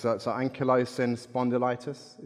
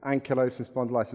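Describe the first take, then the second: First: "ankylosing spondylitis" tried out haltingly, rising at the end like a question; tentative first go at "ankylosing spondylitis"; unsure pronunciation. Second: "Ankylosing spondylitis" said again quickly, settling with a falling finish; fast, assured retake of "Ankylosing spondylitis"; confident repeat. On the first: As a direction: feel your way through "ankylosing spondylitis", unsure of it. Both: Real, not acted. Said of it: "Is that how you say it?".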